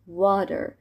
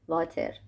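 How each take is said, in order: First: It starts with rounded lips, a w sound. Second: It starts with a v sound and a rolled r. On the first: The speaker calls it right. "لبا قنچه میکنم میشه water" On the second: The speaker calls it wrong. "میخوام اینو قشنگ فارسیشو بگم میشه واتر"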